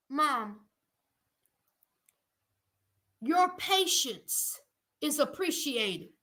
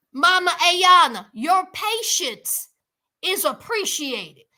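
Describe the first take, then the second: First: Softer aside. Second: Emphatic, measured appreciation; louder address. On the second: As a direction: spell it out to Mama Ayana. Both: Shown as a demonstration.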